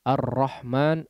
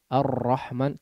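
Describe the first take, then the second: Both takes have the same delivery.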